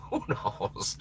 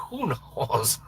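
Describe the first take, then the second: First: Breathy laughing whisper. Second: Said in the usual way. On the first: Real, not acted. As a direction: giggle it under your breath.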